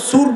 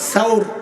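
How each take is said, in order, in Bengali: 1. s-এর পরের স্বরধ্বনি 'u'। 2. s-এর পরের স্বরধ্বনি 'a'। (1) "ভুল উচ্চারণ ব্যাপক" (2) "সাল সায়ের উপর জবর সাউর"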